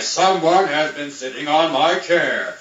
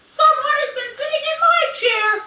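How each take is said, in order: First: It is said in a rough voice. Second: It is said in a squeaky voice.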